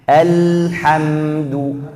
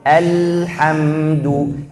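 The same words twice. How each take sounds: Both takes have the same delivery.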